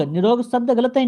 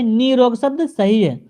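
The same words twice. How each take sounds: First: "निरोग" with short i, ni-rog; wrong form nirog. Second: "निरोग" with long ee, nee-rog; corrected form neerog. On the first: Teacher showing the wrong word, "निरोग" as short ni-rog. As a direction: keep "नि" brief in "निरोग". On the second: Teacher giving the right word, "निरोग" slowly as nee-rog. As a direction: stretch the first vowel of "निरोग", slowly. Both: Shown as a demonstration.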